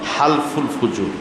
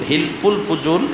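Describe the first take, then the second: First: The first syllable is said with an 'a' vowel. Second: The first syllable is said with an 'i' vowel. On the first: The speaker calls it right. "মূলত হালফুল ফুজুল" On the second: The speaker calls it wrong. "এটা মানে সঠিক উচ্চারণ না"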